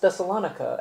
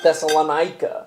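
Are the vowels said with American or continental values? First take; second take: continental; American. First: The vowels have continental European values. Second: The vowels have ordinary American English values. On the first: This is closer to the Greek city's name. The speaker calls it right. "I think it would actually be pronounced" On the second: This is the Americanized version everybody says. The speaker calls it wrong. "and not"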